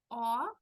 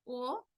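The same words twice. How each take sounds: First: O louder and opened wide, like "aw". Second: O closed and rounded. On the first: Teacher recaps the sounds, open O. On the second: Teacher recaps the sounds, closed O. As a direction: say O as in Spanish. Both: Shown as a demonstration. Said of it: "entonces recordando".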